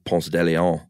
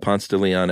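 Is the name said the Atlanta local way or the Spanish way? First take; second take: Spanish; Atlanta local. First: It is said the Spanish way. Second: It is said the local Atlanta way.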